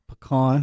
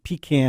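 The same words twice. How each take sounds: First: It uses the speaker's own usual pronunciation. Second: It imitates the Southern guest's pronunciation. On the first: "how I say it" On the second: "how you say it"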